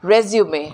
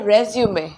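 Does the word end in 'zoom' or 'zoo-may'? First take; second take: zoo-may; zoo-may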